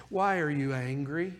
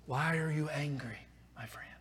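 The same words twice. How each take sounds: First: Soft question. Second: Whispered, soft plea to a friend. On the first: Preacher asks the listener gently. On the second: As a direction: breathe the question almost silently. Preacher whispers God's question. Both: Acted.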